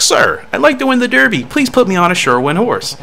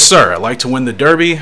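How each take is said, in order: First: Much higher-pitched jockey voice; jockey character voice. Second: Said in the usual way. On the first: Acted. Jockey begging the trainer for a horse, high character voice. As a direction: play the eager jockey up high. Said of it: "That's how my character looks like he talks". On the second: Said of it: "Oh, no, this is me talking to him".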